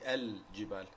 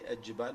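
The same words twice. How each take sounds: First: The L is clearly pronounced before the J. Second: The L merges into a doubled J sound. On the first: The speaker calls it right. "It has to be al-jibal. The jim has uh, idhar" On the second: The speaker calls it wrong. "They say al-jibal, which is wrong"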